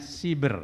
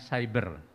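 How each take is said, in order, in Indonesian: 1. Suku pertama diucapkan dengan bunyi 'i'. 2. Suku pertama diucapkan dengan bunyi 'ai'. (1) "[name] itu nyebutnya siber ... dengan i, tidak dengan syai" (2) "[name] nyebutnya cyber"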